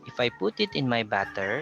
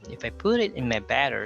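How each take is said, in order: First: It has a regional Filipino accent. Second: It has an American-like accent with soft d. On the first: The speaker calls it wrong. "if I include my Ilonggo accent there" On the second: The speaker calls it right. "using the soft D, notice how it improves"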